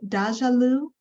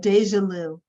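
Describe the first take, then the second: First: The first part does not sound like deja. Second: The first part sounds like deja in deja vu. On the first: The speaker calls it wrong. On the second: The speaker calls it right.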